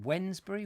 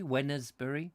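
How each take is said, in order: First: "Wednesbury" said as WENZ-bree, questioning; two-part pronunciation. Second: "Wednesbury" said as WEN-uz-bree, questioning; three-part pronunciation. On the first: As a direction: ask "Wednesbury" as WENZ-bury, middle vowel dropped. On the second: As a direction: ask "Wednesbury" with an extra vowel, WEN-uhz-bury. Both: Shown as a demonstration.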